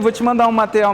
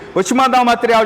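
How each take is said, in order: First: It is said in a flat, detached tone. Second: It is said in a warm, friendly tone. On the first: The sale will not close. The speaker calls it wrong. "uma tonalidade de voz para você entender que não vai fechar" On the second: The sale will close. The speaker calls it right. "a tonalidade de posicionamento de voz pelo WhatsApp que você vai fechar"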